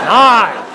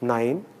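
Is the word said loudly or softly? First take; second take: loudly; softly. First: It is said loudly in a booming voice. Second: It is said quietly in a soft voice. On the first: The speaker calls it wrong. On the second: The speaker calls it right.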